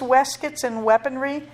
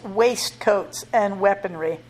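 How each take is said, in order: First: Waistcoats is pronounced the British way. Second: Waistcoats is pronounced the American way.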